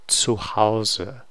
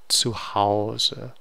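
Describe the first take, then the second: The two takes are said the same way.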